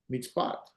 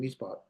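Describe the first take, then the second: First: The final syllable carries clear stress. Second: The final syllable carries no stress. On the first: "Put the accent or the emphasis on the end" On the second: "There's no emphasis"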